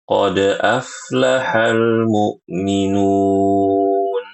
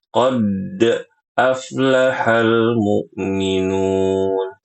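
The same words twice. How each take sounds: First: The bounce on the d sound flows on naturally. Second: The d sound is held long as if doubled. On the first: The speaker calls it right. "dibaca qalqalahnya itu secara natural" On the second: The speaker calls it wrong. "seakan-akan hurufnya ini bertasydid"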